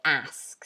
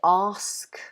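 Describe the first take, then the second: First: American accent with an open, flatter front vowel. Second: British accent with a long back 'ah' vowel. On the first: "in American English they would probably say ask" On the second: "so we say ask"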